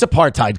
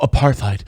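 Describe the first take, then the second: First: The middle consonant is a plain T sound. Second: The middle consonant is a TH sound. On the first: The speaker calls it right. "it's apartheid" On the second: The speaker calls it wrong. "pronouncing the T H in apartheid"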